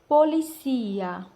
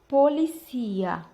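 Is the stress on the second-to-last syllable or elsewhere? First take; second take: penultimate; penultimate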